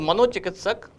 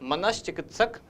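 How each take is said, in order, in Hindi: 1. दूसरे अक्षर का अंत 'o' ध्वनि से होता है। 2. दूसरे अक्षर का अंत 'sh' ध्वनि से होता है। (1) "मनोचिकित्सक अशुद्ध है" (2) "मनश्चिकित्सक सही है"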